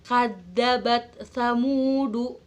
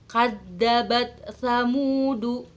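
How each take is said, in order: No difference in how they are said.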